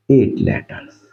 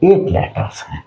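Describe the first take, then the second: First: Hushed confirming repeat; whispered repeat. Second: Said in the usual way. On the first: Shown as a demonstration. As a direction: whisper eight letters back to yourself. Teacher repeats count for class.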